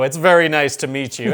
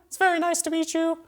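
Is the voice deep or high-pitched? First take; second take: deep; high-pitched. First: It is said in a deep, manly voice. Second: It is said in a high, boyish voice.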